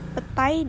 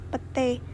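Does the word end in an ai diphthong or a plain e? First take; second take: ai; e. First: The word ends in an ai diphthong. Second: The word ends in a plain e vowel.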